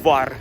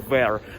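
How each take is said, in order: First: It is said with a rough Russian pronunciation. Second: It is said like the start of English 'variables'. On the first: The speaker calls it wrong. "we are say in a Russian rough accent var, like it is written in Russian language" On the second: The speaker calls it right. "but actually it is maybe var, it is like variables"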